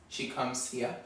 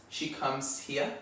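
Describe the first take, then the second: No difference in how they are said.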